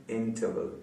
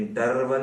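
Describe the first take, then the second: First: इंटरवल said softly as "in-tuh-vul", first syllable stressed, no r; correct pronunciation. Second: इंटरवल with a stressed middle "tar" and a sounded r; wrong pronunciation. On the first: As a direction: keep the middle of इंटरवल weak and r-less. (इंटरवल को हल्के से "इंटवल" जैसा) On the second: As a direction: lean on a rolled r in the middle of इंटरवल. (इंटरवल के बीच में "टर" पर ज़ोर) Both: Shown as a demonstration. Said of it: "इंटरवल नहीं".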